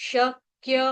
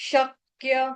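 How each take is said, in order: The two takes are said the same way.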